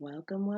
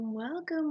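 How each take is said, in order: First: Said in the usual way. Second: High excited welcome. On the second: Acted. Host greets her listeners with a high excited welcome. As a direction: welcome leaps up high then falls.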